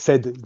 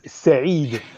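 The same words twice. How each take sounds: First: The name sounds like English past tense 'said'. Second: The name is pronounced the Arabic way.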